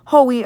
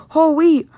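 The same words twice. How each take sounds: First: Said in the usual way. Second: "whole wheat" pitched up and punched; "whole wheat" as a raised, insistent correction; emphatic repeat. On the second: Acted. Repeats the words emphatically after correcting.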